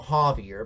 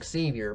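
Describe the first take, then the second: First: The name is said with a Spanish pronunciation. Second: The name is said with an English pronunciation. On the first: "he's going by the Spanish version of it" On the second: "just call him Xavier Becerra because I speak English"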